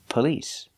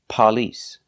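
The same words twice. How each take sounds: First: The stress is on the second syllable. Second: The stress is on the first syllable. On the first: The speaker calls it right. "The stress is on the second syllable" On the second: The speaker calls it wrong. "It's not on the first syllable. We do not say police"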